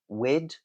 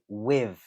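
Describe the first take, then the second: First: The th is replaced by a D sound. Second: The th is replaced by a V sound. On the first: "you can replace it with a D" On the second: "replace it with a V. So a V sound"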